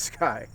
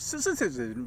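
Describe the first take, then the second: First: The name is said as one syllable. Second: The name is said with several syllables. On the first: The speaker calls it right. "but it's it's Sky" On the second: The speaker calls it wrong. "or Sississin"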